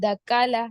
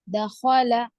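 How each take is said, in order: First: The middle consonant is a plain k sound. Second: The middle consonant is a rasping kh sound. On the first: The speaker calls it wrong. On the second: The speaker calls it right.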